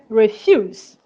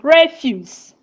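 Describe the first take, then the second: First: The stress is on the second syllable. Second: The stress is on the first syllable. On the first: It is a verb meaning to decline. "As a verb, refuse" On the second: It is a noun meaning rubbish. "As a noun, we pronounce it refuse"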